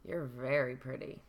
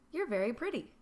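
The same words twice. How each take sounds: First: It is said in a leering, unkind tone. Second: It is said in a warm, kind tone.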